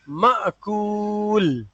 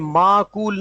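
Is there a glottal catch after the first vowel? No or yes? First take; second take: yes; no. First: A sharp glottal catch follows the first vowel. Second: The first vowel runs long with no catch. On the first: The speaker calls it right. "हमजा साकिन को जर्क के साथ, झटके के साथ हिलाकर पढ़ेंगे" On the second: The speaker calls it wrong. "ये माकूल नहीं होगा"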